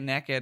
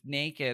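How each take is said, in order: First: It is said with a Southern regional pronunciation. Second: It is said with a standard, careful pronunciation. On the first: "I say naked" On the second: "instead of naked"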